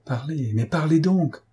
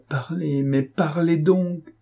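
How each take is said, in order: First: Higher-pitched, pressing command; urgent order. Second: Higher, drawn-out insistent command; insistent order. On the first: Police chief ordering the stunned witness, urgent command. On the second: Police chief pressing the witness to speak, slow insistent order. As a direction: press harder, stretching each word out. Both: A narrator's reading. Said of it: "ordonna monsieur Lenormand".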